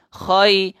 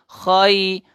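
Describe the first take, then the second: The two takes are said the same way.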